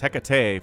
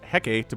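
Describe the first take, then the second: First: It is pronounced following Greek pronunciation rules. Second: It is pronounced the way the spelling suggests. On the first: The speaker calls it right. "but it's Hecate for some reason. I guess it's Greek" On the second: The speaker calls it wrong. "I know it looks like it's pronounced Hecate"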